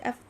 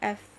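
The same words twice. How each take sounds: First: The f sound stops abruptly. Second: The f sound keeps running. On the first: The speaker calls it wrong. "If I just say f, that's not fair" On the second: The speaker calls it right. "The sound should run"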